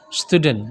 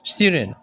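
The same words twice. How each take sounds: First: Said in the usual way. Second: Student sung a little, British stiuden; a bit sing-song British. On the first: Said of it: "Kalau kita kan biasanya menggunakan kata student". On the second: Shown as a demonstration. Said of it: "dia agak kidung sedikit". (agak berlagu seperti orang British)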